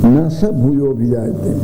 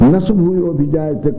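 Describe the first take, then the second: First: Na and sa are said as separate words. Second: Na and sa are run together as one word. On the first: The two words are kept as distinct words. The speaker calls it right. "न अलग पद है, स अलग पद है।" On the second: The two words seem to form a single word. The speaker calls it wrong. "कभी मत बोलिए"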